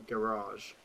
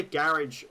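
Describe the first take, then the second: First: GARAGE as guh-RAHZH, long A; pronunciation contrast. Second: GARAGE as GARR-idj; pronunciation contrast. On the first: Streamer listing both English options, second pronunciation. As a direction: say GARAGE stressed last, drawn-out AHZH. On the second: Streamer listing both English options, first pronunciation. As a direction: say GARAGE stressed first, ending like ridge. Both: Shown as a demonstration. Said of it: "You can say garage or garage".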